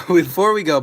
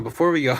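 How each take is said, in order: First: Before we go, much louder and higher with a laugh; laughing call. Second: Said in the usual way. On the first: Real, not acted. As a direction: laugh and shout it out to stop the ending. Repeats call to stop stream.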